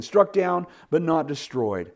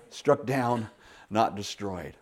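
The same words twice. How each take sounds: First: "struck down" called out high and loud; triumphant declaration; proclaimed verse. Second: Hushed restatement. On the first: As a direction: ring out "struck down, but not destroyed". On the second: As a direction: let the verse settle gently. Verse repeated quietly. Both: Acted.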